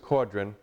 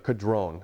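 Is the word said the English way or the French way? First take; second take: English; French. First: The word is said with an English pronunciation. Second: The word is said with a French pronunciation. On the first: This is what the owner calls it. The speaker calls it wrong. "Frank will call this a quadron" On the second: This is how it is said in its home language. The speaker calls it right. "That's how the French pronounce this"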